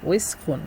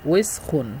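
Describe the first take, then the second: Both takes have the same delivery.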